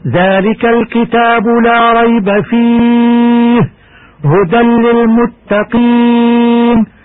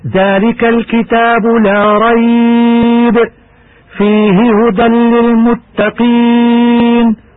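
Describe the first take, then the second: First: There is a pause right after the word fihi. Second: There is a pause right after the word rayb. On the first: "ويجوز أيضا" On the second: "يصح الوقف هكذا"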